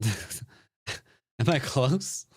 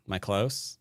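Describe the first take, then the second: First: Very slow, laughing, rising mock question; teasing drawn-out repeat. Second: Said in the usual way. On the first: Shown as a demonstration. Streamer teasing chat about his guess, slow and laughing. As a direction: stretch it out to tease chat. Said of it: "laughs, drawn-out repeat". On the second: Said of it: "repeats teasingly".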